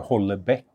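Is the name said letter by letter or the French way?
letter by letter. The name is pronounced following its spelled letters. "Jag uttalar inte det efter bokstäverna"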